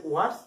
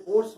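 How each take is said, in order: First: ওয়ার্স opening with a clear "wa" sound; corrected pronunciation. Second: ওর্স with a rounded "o" vowel, like "ors"; common mispronunciation. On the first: Teacher correcting a common mistake, ওয়ার্স modelled with "wa". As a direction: say ওয়ার্স as "wars", not "ors". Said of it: "সঠিক উচ্চারণ হচ্ছে". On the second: Teacher quoting students' mistake, ওর্স mispronounced with an "o". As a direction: say ওর্স with "o" in place of "wa". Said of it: "উচ্চারণটা অনেকে ভুল করে". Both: Shown as a demonstration.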